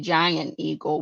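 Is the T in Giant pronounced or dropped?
dropped. Giant is said without its T, Pittsburgh style.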